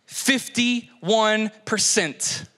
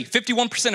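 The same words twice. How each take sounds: First: FIFTY, ONE, PERCENT drawn out with pauses; deliberate pauses splitting "Fifty-one percent"; slow, emphatic repeat. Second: Said in the usual way. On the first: Real, not acted. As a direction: land "Fifty-one percent" very slowly, word by word. Repeats statistic slowly for impact.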